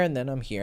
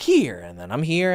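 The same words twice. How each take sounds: First: Here said low and quiet with a falling tune; low falling demo. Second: Here said with a rise, pitch climbing; rising pitch demo. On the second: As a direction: lift the tune up on here. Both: Shown as a demonstration. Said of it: "how I'm talking now".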